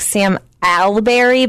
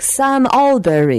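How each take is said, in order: First: It is said in a Chicago accent. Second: It is said in a British accent.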